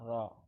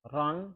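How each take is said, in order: First: The syllable ends on an open vowel. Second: The syllable ends with an n sound. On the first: The reader stops at the pause mark. "dibaca ro" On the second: The reader carries on without stopping. "nah kan ron dibaca ro"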